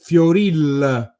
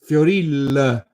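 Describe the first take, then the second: Both takes have the same delivery.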